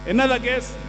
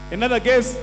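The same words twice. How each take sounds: The two takes are said the same way.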